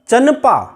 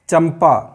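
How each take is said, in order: First: The nasal before p is an n sound. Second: The nasal before p is an m sound. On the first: The speaker calls it wrong. "तो हम इतना आसानी से सुखपूर्वक नहीं बोल सकते" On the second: The speaker calls it right. "यहाँ पर अनुस्वार की ध्वनि माँ ही निकलेगी।"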